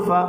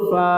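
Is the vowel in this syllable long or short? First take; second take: short; long. First: The vowel is short and said quickly. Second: The vowel is drawn out long. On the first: "তাড়াতাড়ি।" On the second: "এক আলিফ।"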